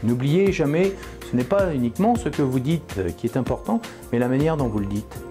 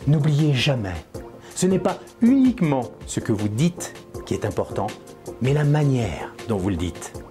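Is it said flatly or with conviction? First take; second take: flatly; with conviction. First: It is said in a flat monotone. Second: It is said with lively, sincere conviction.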